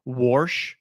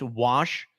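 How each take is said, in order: First: "warsh" with an r before the sh; "warsh" said with an added r; warsh pronunciation. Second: Said in the usual way. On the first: Retold or imitated. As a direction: say "warsh" rhyming with porch. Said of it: "when people say "warsh". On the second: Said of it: "when it's "wash".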